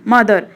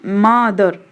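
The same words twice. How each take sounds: First: Said in the usual way. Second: मदर slowly broken into two beats; split into syllables. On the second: Shown as a demonstration. Teacher showing students two syllables, मदर split in two. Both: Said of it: "तो इसमें देखो दो है ना".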